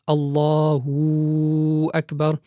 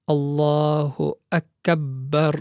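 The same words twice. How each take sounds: First: An extra w sound joins the two words. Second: The b consonant is held and doubled. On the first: "increase the wow, the wow sakina" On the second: "one should not have any shadda on the ba"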